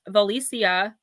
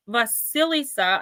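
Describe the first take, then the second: First: Valicia said slowly with no S after Va; uncertain pronunciation. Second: Vasilisa slowly, with SIL after Va; second pronunciation attempt. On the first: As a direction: try Valicia slowly, as va-LEE-sia. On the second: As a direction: sound out Vasilisa in four syllables. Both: Real, not acted. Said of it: "I don't know how to pronounce it".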